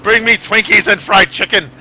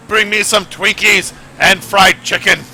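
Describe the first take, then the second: First: Loud, high repeated demand; mock last wish. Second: Slow, loud, hammed-up demand; dying wish shout. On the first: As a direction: call out the last wish again. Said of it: "That's gonna be my last wish". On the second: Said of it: "I'm, like, gonna be like".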